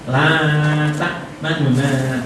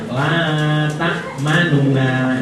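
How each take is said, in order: First: One vowel is said quickly and faintly, partly lost. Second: The vowels are all said fully and clearly. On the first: "sekarang kita baca ikhtilas" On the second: "kalau dibaca biasa"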